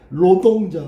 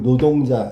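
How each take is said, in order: First: The word begins with an R sound. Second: The word begins with an N sound. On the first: This is how North Korea says it. "북한은 이거 하고 있지. 노동자, 막 이러잖아" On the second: It is changed to be easier to say. "발음하기 편하게 하려고 노동자 이렇게 바꿔서"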